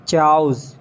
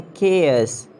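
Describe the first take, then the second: First: "Chows" as one syllable with CH; mispronounced chaos. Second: "chaos" as KAY-oss; hard K, two syllables in "chaos"; British pronunciation. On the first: Acted. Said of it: "it's not a chows". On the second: Shown as a demonstration. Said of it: "It's a chaos".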